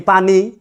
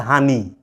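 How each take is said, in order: First: It starts with a p sound. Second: It starts with an h sound, Noakhali style.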